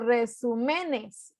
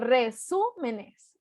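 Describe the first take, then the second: First: The stress falls on a syllable other than su. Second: The stress falls on the third-to-last syllable, su. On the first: The speaker calls it wrong. "ni digo resúmenes" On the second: The speaker calls it right. "digo resúmenes. Entonces es esdrújula"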